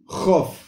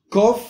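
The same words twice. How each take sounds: First: "jof" starting with a throat fricative, like Spanish j; soft guttural in jof. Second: "Kof" with a firm k stop, higher; hard K in Kof. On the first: Teacher shows a letter without dogesh, soft guttural. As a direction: let air scrape at the start of "jof". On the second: Teacher shows a letter with dogesh, hard K. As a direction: punch the k of "Kof". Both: Shown as a demonstration. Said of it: "que no tienen dogesh son más débiles".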